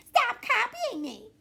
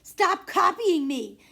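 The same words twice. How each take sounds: First: Very high, slow mocking echo with a laugh; a little sister copying the shout; higher copycat shout. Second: High, slow, laughing yell; a kid's laughing protest; loud shout. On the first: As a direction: throw the words right back, mimicking. Narrator copies the shout back. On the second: Acted. Sibling shouting, copied back.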